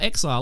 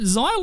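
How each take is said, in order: First: The name starts with an 'eks' sound. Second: The name starts with a 'z' sound. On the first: "It probably means exile" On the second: "Xyle, like Nile"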